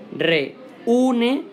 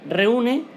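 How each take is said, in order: First: Reúne sung out higher, leaning on the ú with a rising tune; stress on the Ú. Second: Said in the usual way. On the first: Shown as a demonstration. Teacher showing students where the hiatus falls, stressing ú. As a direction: lift the ú of reúne so the hiatus can be heard. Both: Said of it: "vemos que en esta U hay una ligera fuerza de voz".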